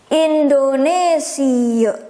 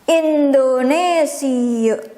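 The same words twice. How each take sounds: First: It is pronounced the Dutch way. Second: The same.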